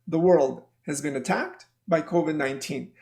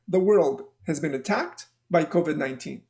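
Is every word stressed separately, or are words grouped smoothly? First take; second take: grouped; grouped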